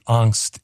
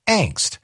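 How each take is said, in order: First: "angst" with an ah vowel; alternative pronunciation. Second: "angst" with the a of "anger"; main pronunciation. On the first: Citing the dictionary's other option, "angst" as AHNKST. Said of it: "is an acceptable pronunciation". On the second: Citing the dictionary's main option, "angst" with a front a. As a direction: say "angst" as ANKST. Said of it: "the main pronunciation is angst". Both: Shown as a demonstration.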